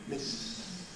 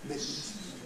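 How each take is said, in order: Both takes have the same delivery.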